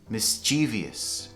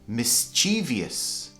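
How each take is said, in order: No difference in how they are said.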